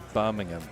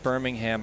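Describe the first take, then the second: First: The name is said with a British pronunciation. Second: The name is said with an American pronunciation. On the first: The speaker calls it right. "it's supposed to be Birmingham" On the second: The speaker calls it wrong. "it's actually not pronounced Birmingham. I only say it that way when I'm in the United States"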